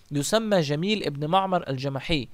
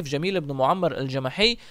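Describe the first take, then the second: First: معمر said as maʕmar, short plain vowels; معمر with the slip reading maʕmar; wrong name first. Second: معمر said as muʕammar, doubled m; معمر corrected to muʕammar, stress on the doubled m; corrected name. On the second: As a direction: say معمر as mu-ʕam-mar with a long m. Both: Shown as a demonstration. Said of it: "آسف".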